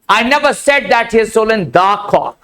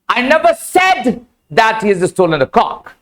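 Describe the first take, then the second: First: The stress is on the word cock. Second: The stress is on the word said.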